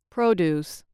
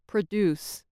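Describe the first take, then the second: First: The stress is on the first syllable. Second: The stress is on the second syllable. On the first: It is a noun. "With stress on the first syllable, the following words act as nouns" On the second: It is a verb. "and on the second syllable, they act as verbs"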